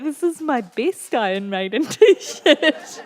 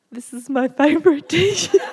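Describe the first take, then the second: First: Higher, slow, laughing repeat of the line; slow laughing quote. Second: Higher, louder, laughing through the quote. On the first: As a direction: drag it out while laughing. Husband voiced again, slower, laughing. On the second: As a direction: quote him while cracking up. Husband voiced, laughing while quoting. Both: Retold or imitated.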